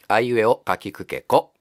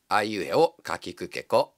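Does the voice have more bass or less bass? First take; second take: more bass; less bass. First: The voice has slightly more bass. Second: The voice has slightly less bass.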